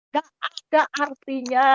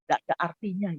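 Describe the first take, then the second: First: "Nggak ada artinya" lifted higher, word by word; emphatic repeat. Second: Said in the usual way. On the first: Real, not acted. Preacher telling the congregation it is worthless, emphatic "Nggak ada artinya". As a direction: drive home "Nggak ada artinya" with raised pitch.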